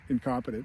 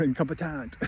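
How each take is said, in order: First: Said in the usual way. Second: "incompetent" with a French-style last syllable; mock French accent. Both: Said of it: "in France, they call you".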